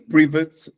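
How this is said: The first syllable sounds like 'preh'. "na Inglaterra"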